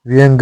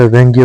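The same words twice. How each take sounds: First: व्यंग stopping on g; wrong bare g ending. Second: व्यंग्य ending in gya; correct -gya ending. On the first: Teacher showing learners the mistake, व्यंग without final ya. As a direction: say व्यंग as vyang, no y after g. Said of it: "व्यंग्य होता है". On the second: Teacher giving learners the correction, व्यंग्य with final ya. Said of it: "व्यंग नहीं होता". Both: Shown as a demonstration.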